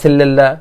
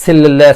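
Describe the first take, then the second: First: The first syllable is said with an 'e' vowel. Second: The first syllable is said with an 'e' vowel.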